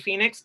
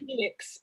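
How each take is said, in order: First: It is said in the speaker's plain accent. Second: It is said in a thick foreign accent. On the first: The speaker calls it right. "my name is [name]" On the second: The speaker calls it wrong. "people with very thick thick accents ... say Phoenix, and it sounds like penis"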